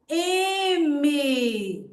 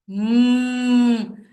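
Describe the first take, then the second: First: The letter's name is stretched out with vowels. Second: The lips close and a nasal hum sounds. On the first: The speaker calls it wrong. "eu vou prolongar o nome" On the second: The speaker calls it right. "Os lábios se fecham e o som vai fazer, vai sair nasalizado"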